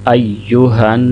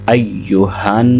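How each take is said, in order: The two takes are said the same way.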